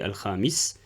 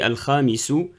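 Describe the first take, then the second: First: The word ends on a bare consonant. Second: The word ends with a short u vowel. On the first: This is the form used when stopping at the end. "je m'arrête sur un soukoun" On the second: This is the full form within a sentence. "normalement, c'est al-khamisu"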